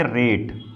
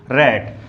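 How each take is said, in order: First: रेट with a long 'ay' vowel; long-vowel pronunciation. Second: रैट with an open 'a' as in cat; short-vowel pronunciation. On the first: Teacher showing what an added E does, रेट with long 'ay'. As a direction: stretch the vowel in रेट to 'ay', lower pitch. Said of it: "ई लग गया, तो क्या हो गया". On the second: Teacher reading out the word without final E, रैट with open 'a'. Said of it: "क्या पढ़ेंगे इसको". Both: Shown as a demonstration.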